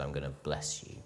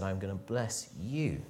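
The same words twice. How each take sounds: First: Low, soft, understated promise; God's quiet promise. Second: Slow promise landing on YOU; stress on YOU. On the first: God speaking to one tiny man, quiet promise. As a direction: say it softly and low, letting "you" fall away. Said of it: "The God of the universe saw me and said". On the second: God promising each listener in Edmonton, stress on YOU. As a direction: draw it out and lean on the final "you". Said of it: "That's true of you here in Edmonton". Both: Acted.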